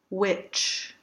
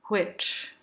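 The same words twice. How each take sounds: First: The opening w is voiced with vibration. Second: The opening w is breathy and voiceless. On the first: "The voiced W glide" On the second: "Unvoiced turned W"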